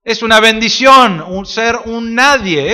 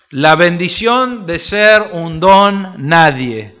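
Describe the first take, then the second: First: Said in the usual way. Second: Drawn out, each word weighed; slow reverent reading; slow scripture reading. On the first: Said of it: "eso es lo que Pablo está diciendo". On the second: Shown as a demonstration. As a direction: read the verse slowly and solemnly. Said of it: "¿no es cierto?".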